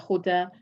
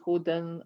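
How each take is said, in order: First: The word ends on a plain vowel. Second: The word ends with an n sound. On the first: The reader stops on this word. "if you're stopping on it, then you would say" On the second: The reader continues past this word. "if you are continuing, then you would say"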